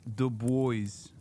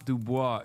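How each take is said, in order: First: The name ends with an English 'boys' sound. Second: The name ends with a French-style 'bwah' sound. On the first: The speaker calls it right. "that's the correct way to say it" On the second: The speaker calls it wrong. "it's not Dubois"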